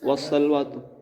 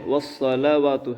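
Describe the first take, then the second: First: The middle 'la' is clipped into 'sal'. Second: The middle 'la' is fully pronounced. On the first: The speaker calls it wrong. "इसे क्या बोलते हैं मालूम?" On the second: The speaker calls it right. "वस्सल नहीं है, वस्सलावातु है"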